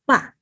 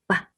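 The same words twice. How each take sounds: First: The pitch falls sharply from high to low. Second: The syllable is short and light, unstressed. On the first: "Fourth tone go down, falling" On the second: "the natural tone is a light ba"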